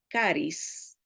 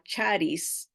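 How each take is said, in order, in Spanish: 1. La palabra empieza con sonido k. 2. La palabra empieza con sonido ch. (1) "pero se pronuncia caris" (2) "nosotros en español la, la leemos como charis"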